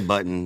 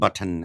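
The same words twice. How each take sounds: First: The word is said in a soft, mumbled way. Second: The word is said in a strong, crisp way. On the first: "I have a little bit of an accent. It's like a mumble. ... so I say button" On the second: "he says"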